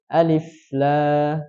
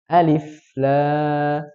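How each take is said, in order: The two takes are said the same way.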